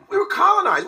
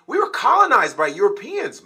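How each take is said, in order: First: We were colonized, far higher and louder, leaning on were; heated shout stressing were; outraged emphasis. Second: Said in the usual way. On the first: Real, not acted. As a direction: hammer the word were, pitched way up in anger. Repeats point, then shouts it.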